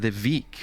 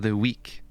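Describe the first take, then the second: First: The word begins with a V sound. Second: The word begins with a W sound.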